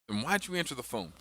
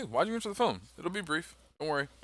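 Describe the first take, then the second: First: Said in the usual way. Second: Fast, higher, blunt challenge. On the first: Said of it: "So like I say". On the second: Shown as a demonstration. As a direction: snap the question out fast and high. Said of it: "be very blunt with these people".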